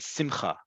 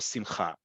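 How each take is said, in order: First: The stress is on the first syllable. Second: The stress is on the last syllable. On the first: "it's usually on the second to last syllable" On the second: This is the standard modern Hebrew pronunciation. "the stress is on the last syllable"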